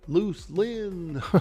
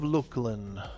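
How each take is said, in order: First: The middle consonant is an s sound. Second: The middle consonant is a k sound. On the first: This is the old way of saying it. "That's how I used to pronounce it" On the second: This is the current way of saying it. "I've changed my pronunciation in recent years"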